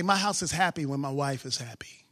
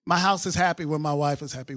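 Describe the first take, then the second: First: Breathy low whisper of a private joke. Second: Said in the usual way. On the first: Shown as a demonstration. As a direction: say it in a secret whisper. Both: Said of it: "I say".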